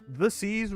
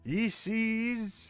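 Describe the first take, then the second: First: The first word is pronounced 'the'. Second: The first word is pronounced 'ye'. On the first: The speaker calls it right. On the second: The speaker calls it wrong.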